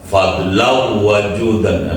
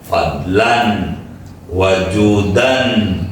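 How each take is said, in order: First: The n sound merges into the following w. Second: The n sound is kept clear before the w. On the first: It is read by recitation rules rather than meter rules. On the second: It is read by the rules of meter.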